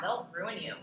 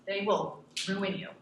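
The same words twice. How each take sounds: First: Said in the usual way. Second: Slow, heavy stress on "will" in "They will ruin you". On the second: Shown as a demonstration. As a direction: lean hard on "will", slowly and darkly.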